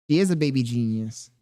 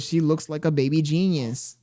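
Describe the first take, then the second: First: "is" leaned on to confirm; stress on IS. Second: Said in the usual way. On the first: Real, not acted. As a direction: agree by hitting "is".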